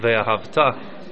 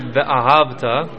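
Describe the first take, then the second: First: The stress falls on the final syllable. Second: The stress falls early in the word. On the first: The action will happen in the future. "which is at the end mila ra" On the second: The action happened in the past. "with the what's called mila el, the pronunciation at the beginning of the word"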